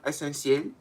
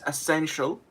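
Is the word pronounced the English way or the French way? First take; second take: French; English. First: The word is pronounced the French way. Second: The word is pronounced the English way. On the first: The speaker calls it wrong. "it's not essentiel" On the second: The speaker calls it right. "It's essential"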